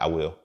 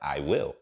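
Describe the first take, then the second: First: It is said in a plain, ordinary way. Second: It is said in an exaggerated, comical way. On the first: This is how he himself said it. "I'm like" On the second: This is how others mockingly retell it. "they say it funnier than that"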